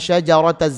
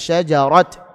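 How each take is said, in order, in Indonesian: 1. Huruf t diikuti vokal, jadi tersambung ke kata berikutnya. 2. Kata ini berakhir dengan bunyi t mati.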